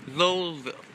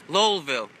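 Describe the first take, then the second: First: The name sounds like 'Lowellville'. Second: The same.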